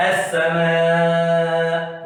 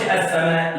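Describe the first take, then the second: First: السماء with the alif stretched very long; long madd. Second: السماء said with a short plain alif; short madd. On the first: Teacher showing the correct long madd in السماء. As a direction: draw out the alif of السماء slowly. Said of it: "بطول شويه فيها". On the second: Teacher showing the wrong short السماء. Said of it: "ما اقولش السماء". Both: Shown as a demonstration.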